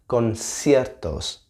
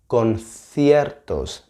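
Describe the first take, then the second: First: The c is pronounced as an s sound. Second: The c is pronounced as a th sound. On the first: The speaker is from Latin America. "instead of conciertos" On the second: The speaker is from Spain. "if this the interviewer was Spanish, she would have said conciertos"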